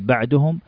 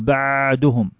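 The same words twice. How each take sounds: First: The consonant is held only slightly longer. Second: The consonant is held much too long. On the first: The speaker calls it right. "حركة زايدة بسيطة عن الحركة الأولى ولا يصل إلى حركتين" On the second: The speaker calls it wrong. "فما نقول"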